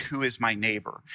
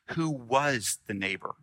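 First: Plain asking of who is my neighbor; the man's question. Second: Jesus's version with stress on was in Who was the neighbor; reframed question. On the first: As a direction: stress lands on is in Who is my neighbor. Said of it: "says it different". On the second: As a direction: lean on who and was to turn the question back. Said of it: "Instead of putting the emphasis on the other". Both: Shown as a demonstration.

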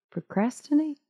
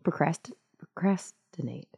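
First: Procrastinate? with a high rising question tune; puzzled question. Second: Said in the usual way. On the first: Shown as a demonstration. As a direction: ask Procrastinate? as if the word sounds strange. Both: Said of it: "that word just got weird".

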